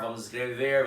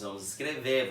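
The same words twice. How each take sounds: First: The final R of the verb is pronounced. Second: The final R of the verb is dropped. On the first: This is how it is written but not spoken locally. "não vamos falar" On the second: This is how local people actually speak. "é justo que nós falamos"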